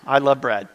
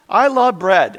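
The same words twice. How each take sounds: First: Said in the usual way. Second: I love bread, loud and high with LOVE punched; excited declaration. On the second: Real, not acted. Pastor confessing to his congregation, loud and excited. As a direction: proclaim it like a passion.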